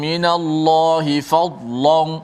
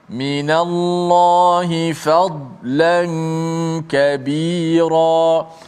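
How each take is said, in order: First: The l sound is heavy and thick. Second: The l sound is light and thin. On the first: The speaker calls it wrong. "Tidak boleh kita baca" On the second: The speaker calls it right. "kemudian la la nipis"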